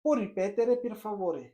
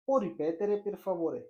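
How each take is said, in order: First: Slow, careful Italian phrase for learners; slow model phrase. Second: Slow, careful Italian phrase again; slow model phrase repeated. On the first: Teacher modelling the Italian phrase, very slow and careful. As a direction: spell it out slowly for the student. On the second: Teacher repeats the Italian phrase, very slow and careful. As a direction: repeat it slowly for the student to copy. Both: Shown as a demonstration. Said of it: "आप उससे कहो".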